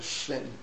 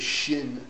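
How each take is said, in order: First: The word begins with an 's' sound. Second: The word begins with a 'sh' sound. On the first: "a sin" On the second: "had a problem with the shin"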